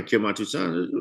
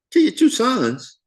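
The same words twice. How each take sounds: First: Said in the usual way. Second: Kill your two sons? thrown up high and slow; incredulous, voice jumping way up; shocked disbelief. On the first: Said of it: "this line here". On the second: Retold or imitated. Jacob repeating Reuben's offer back in high, slow disbelief.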